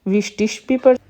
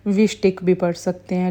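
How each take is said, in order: First: Teacher models the ish reading of विस्टिश. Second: विस्टिक ending in a hard ik; teacher models the ik reading of विस्टिक. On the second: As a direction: finish विस्टिक with a crisp k. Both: Shown as a demonstration.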